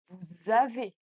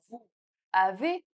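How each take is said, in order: First: The words are linked with a Z sound. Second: The words are said separately without a Z link. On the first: The speaker calls it right. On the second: The speaker calls it wrong.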